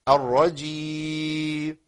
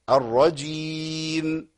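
First: The final m sound is dropped and not heard. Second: The final m sound is closed and clearly heard. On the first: The speaker calls it wrong. "اسقاط اخر حرف ان كان نون او ميم ... يعني ما يسمعش الميم" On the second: The speaker calls it right. "اقفل الفم على مخرج الميم وبين صوت الميم"

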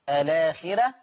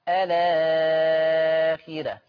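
First: The lengthened vowel is held briefly. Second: The lengthened vowel is held very long.

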